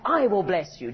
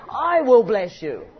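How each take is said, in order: First: Said in the usual way. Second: "I will bless you" slow, loud, heavy on "I"; emphatically. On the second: Shown as a demonstration. Preacher voicing God's promise, slow and emphatic on "I". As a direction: lean hard on "I", slow and loud.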